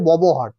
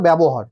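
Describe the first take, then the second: First: The first syllable is said as 'bo'. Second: The first syllable is said as 'bya'. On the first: This is how many people say it. The speaker calls it wrong. "অনেকেই করে ববহার" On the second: This is the proper pronunciation. The speaker calls it right. "কিন্তু উচ্চারণটা ব্যবহার"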